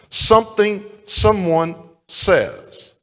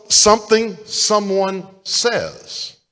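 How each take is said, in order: First: Slow, drawn-out, stressing something; slow emphatic repeat. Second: Slow, drawn-out, each word weighted; preacher stressing the phrase; slow emphatic repeat. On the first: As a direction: lay it down again slowly. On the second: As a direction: lean on something, slowly. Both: Shown as a demonstration.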